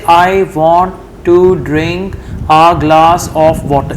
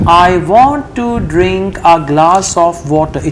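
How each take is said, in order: First: It has breaks after each word. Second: It flows without breaks between words. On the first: The speaker calls it wrong. "it's not fluent" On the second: The speaker calls it right. "it's fluent"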